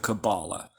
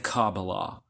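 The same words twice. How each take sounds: First: It uses the common Western pronunciation. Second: It uses the Hebrew-style pronunciation. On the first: "As many people pronounce it in the West"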